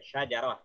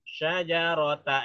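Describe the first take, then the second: First: The word ends with an h sound. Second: The word ends with a ta sound. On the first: The reader stops at this word. "Kalau wakaf" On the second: The reader continues without stopping. "ini tak marbutah"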